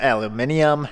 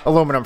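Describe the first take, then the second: First: It is said the British way, aluminium. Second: It is said the American way, aluminum.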